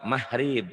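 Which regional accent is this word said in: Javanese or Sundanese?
Javanese. Said with a Javanese accent, softer H sound. "Kalau orang Jawa mahrib gitu ya"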